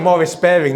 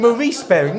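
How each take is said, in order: First: The first name is said the English way. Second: The first name is said the American way. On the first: "So I say Morris Baring" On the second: "In America, it's Maurice"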